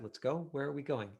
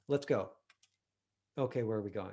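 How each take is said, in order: First: The second line follows with no pause. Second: There is a pause between the two lines.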